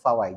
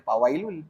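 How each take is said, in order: First: The word begins with an f sound. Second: The word begins with a p sound. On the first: The speaker calls it right. "Fa fa ataupun fawai" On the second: The speaker calls it wrong. "tak boleh pawailul"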